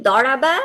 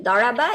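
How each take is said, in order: The two takes are said the same way.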